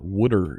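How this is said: It is said with a Philly accent.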